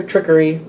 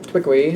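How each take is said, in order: First: Said in the usual way. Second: Trickery with the r softened towards a w; playful mispronunciation. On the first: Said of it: "say it like that". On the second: Real, not acted. Tarot reader toying with a card's word, Trickery said babyishly as "twickery". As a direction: say Trickery as "twickery", rising at the end. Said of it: "wanna say it like that".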